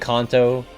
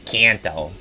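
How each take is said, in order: First: The name is said in a Japanese-like way. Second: The name is said in an American way. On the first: "Should we should I be saying Kanto" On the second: "I'm really Americanizing it by going Kanto"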